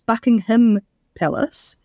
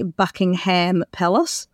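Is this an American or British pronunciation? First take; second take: British; American. First: It is said with a British pronunciation. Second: It is said with an American pronunciation. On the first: The speaker calls it right. "when an English person says it, that it's Buckingham Palace" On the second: The speaker calls it wrong. "Americans say Buckingham Palace"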